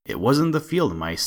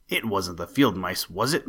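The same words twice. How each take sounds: First: A cheeky bird teasing, a touch louder; taunting sparrow. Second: A mild, understated snarl of the rat. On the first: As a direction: taunt the rat from a safe branch. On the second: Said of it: "he snarled". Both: A narrator's reading.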